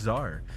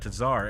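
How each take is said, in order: First: The word begins with no T sound. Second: The word begins with a clear T sound. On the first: "it's just Czar" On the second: "I've always like emphasized the T at the beginning"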